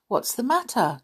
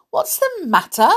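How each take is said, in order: First: Said in the usual way. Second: Loud, high indignant echo. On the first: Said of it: "Doctor Dawson asked". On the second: A narrator's reading. Worried mouse repeating the doctor's question to him, indignant. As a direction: throw the question back, higher and louder. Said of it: "Olivia repeated indignantly".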